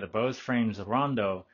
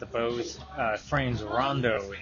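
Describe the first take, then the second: First: The voice sounds clear in a quiet room. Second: Loud music plays behind a normal-volume voice. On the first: "in a quiet office" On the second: "in a coffee shop, and there's music right above my shoulder. Super loud"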